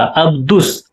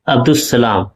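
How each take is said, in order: First: अब्दुस with the lam dropped into the s; अब्दुस said as abdus, no l; assimilated lam. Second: Said in the usual way. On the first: Shown as a demonstration. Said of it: "दाल और सीन का direct तलफ़ुज़". (अब्दुस को बिना लाम के बोलो) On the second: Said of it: "अलिफ और लाम का तलफ़ुज़ नहीं हो रहा".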